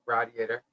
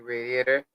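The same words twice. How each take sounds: First: "radiator" with a short a, rad-ee-ay-ter; radiator, other way. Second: "radiator" with a long ay, ray-dee-ay-ter. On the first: Correcting herself for other regions, "radiator" as rad-ee-ay-ter. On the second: Telling friends about the truck, radiator as ray-dee-ay-ter. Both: Shown as a demonstration. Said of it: "depending on where you're from".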